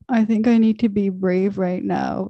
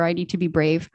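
First: Retelling a mouth that couldn't form the words; a touch of a strained, faltering voice; strained, struggling voice. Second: Said in the usual way. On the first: Retold or imitated. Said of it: "I swear that's how it came out". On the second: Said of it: "I just shared with her".

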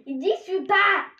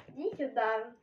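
First: Loud high call, voice raised; yelling across the room. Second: Said in the usual way. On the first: Real, not acted. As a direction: shout it to someone far off. Sister calling brother over.

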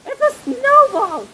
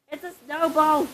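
First: High, thrilled announcement; excited. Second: Said in the usual way. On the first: Real, not acted. Kid showing viewers a snowball, excited. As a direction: repeat it higher, swooping down at the end.

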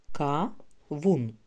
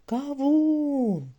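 First: «Ка-вун» in two separate syllables, pause between; split into syllables. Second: «Кавун» called out high with a long «у»; called out for stress. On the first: Teacher counting syllables for children, «Ка-вун» broken in two. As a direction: say «Ка», pause, then «вун», evenly. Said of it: "Визначимо кількість складів". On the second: Teacher helping children find stress, «Кавун» called out, second syllable drawn out. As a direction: hoot it as one word, stretching «вун» in «Кавун». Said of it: "Гукайте". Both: Shown as a demonstration.

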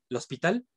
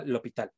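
First: El hospital read with the written S sounded; pronounced as written. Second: L'hôpital with no S sound, "lo-pi-tal"; silent S. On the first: Teacher reads out the spelling, el hospital with its S. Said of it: "aunque vean escrito". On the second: Teacher corrects the written form, l'hôpital with silent S. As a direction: drop the S in l'hôpital, French style. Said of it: "se pronuncia l'hôpital". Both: Shown as a demonstration.

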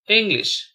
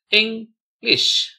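First: Said in the usual way. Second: "English" broken as Eng, lish; syllable by syllable. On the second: Shown as a demonstration. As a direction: clear pause inside "English" between syllables. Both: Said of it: "spell the word".

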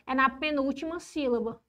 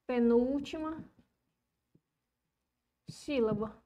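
First: Said in the usual way. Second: Slow, with a long pause between words; subdued, spaced-out dictation. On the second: Real, not acted. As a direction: dictate it as you write. Dictates while writing.

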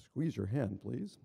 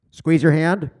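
First: Low-pitched machine request; polite first prompt. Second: Much louder, firm prompt; insistent machine command. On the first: Machine first asks patient to squeeze, low polite prompt. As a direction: imitate a calm device's first prompt. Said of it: "initially it says". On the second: Machine repeats its prompt to unresponsive patient, loud command. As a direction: imitate the device raising its volume sharply. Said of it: "it's very emphatic". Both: Retold or imitated.

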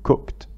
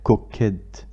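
First: "cooked" as one syllable, ending "kt"; natural "cooked"; quick "cookt"; correct "cooked". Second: "cooked" slowly as "cook-ed" with an extra syllable; the mistake to avoid; spelled-out "cook-ed"; wrong "cooked". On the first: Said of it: "نقول". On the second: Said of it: "ولا تصبح". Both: Shown as a demonstration.

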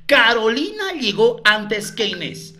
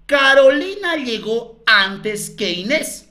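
First: Said in the usual way. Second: Slow, spaced-out reading of the clue; slow dictation. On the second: Shown as a demonstration. Teacher dictating the third clue to colleagues, slowly. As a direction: lay each word down slowly for copying.

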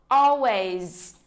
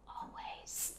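First: Said in the usual way. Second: "Always" whispered, breath only. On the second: Shown as a demonstration. Teacher whispers "Always" as an echo for learners. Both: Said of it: "nhớ phát âm cuối giùm cô nha".

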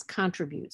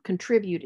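First: CONTRIBUTE as CON-tri-bute, British variant; stress on first syllable. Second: CONTRIBUTE as con-TRIB-ute; stress on second syllable. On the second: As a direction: hit TRIB in contribute, weak first syllable. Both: Shown as a demonstration. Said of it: "is pronounced as contribute".

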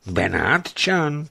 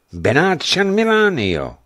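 First: Slow, higher, startled question; Benátčan? asked slowly, astonished; surprised echo. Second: Said in the usual way. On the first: A narrator's reading. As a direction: repeat the word in disbelief. Official echoes the name.

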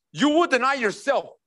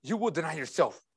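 First: Firm, raised preaching voice; emphatic command. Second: Much softer and lower; hushed solemn repeat. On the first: Preacher tells believers what following means, emphatic. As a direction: declare it outright to the whole room. Preacher's first, forceful take. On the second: Preacher lets the charge sink in for believers, hushed. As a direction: bring it right down, quiet and grave. Same words repeated softly. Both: Real, not acted.

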